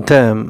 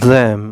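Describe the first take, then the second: Both takes have the same delivery.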